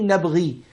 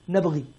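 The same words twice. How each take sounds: First: The final long vowel is fully pronounced. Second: The final long vowel is dropped. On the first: This is the full standard form of the word. "Instead of saying" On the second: The speaker is eager and talking fast. "Musa alayhi salam is speaking fast... So he says"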